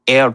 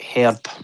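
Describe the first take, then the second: First: The word starts without an h sound. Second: The word starts with an h sound. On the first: This is how Americans say it. The speaker calls it wrong. "not pronounce the H and herb" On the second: This is how the English say it. The speaker calls it right. "instead of herb"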